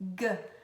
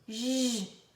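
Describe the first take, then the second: First: The letter has a hard sound as in gato. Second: The letter has a soft sound like j. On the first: "O G de G, G, gato" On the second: "E o som de J"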